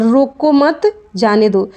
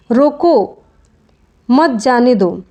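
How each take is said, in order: First: "रोको मत" as one unit, short break, then "जाने दो"; slowly, splitting it after "मत"; pause after मत. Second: "रोको" drawn out, clear break, then "मत जाने दो" together; pause after रोको. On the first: Teacher contrasting the second meaning, pause after "मत". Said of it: "इसका अर्थ हुआ कि रोकना नहीं है". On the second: Teacher showing where the comma falls, pause after "रोको". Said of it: "अल्प विराम का प्रयोग कैसे होता है". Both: Shown as a demonstration.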